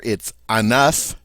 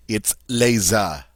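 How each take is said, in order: First: "enough" as un oeuf, with the F sounded; French singular pronunciation. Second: "les a" as lay-ZUH, with no F at all; French plural pronunciation. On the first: Teacher contrasting singular "un oeuf" with the plural. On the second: Teacher contrasting plural "les oeufs" with the singular. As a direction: drop the F: "les a" said slowly. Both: Shown as a demonstration. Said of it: "we lose the F sound".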